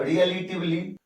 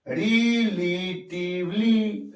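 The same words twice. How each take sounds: First: Said in the usual way. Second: relatively very slow and softer, in four long beats; drawn-out syllables. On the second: Shown as a demonstration. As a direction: stretch each syllable of relatively separately. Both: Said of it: "चार sound या चार".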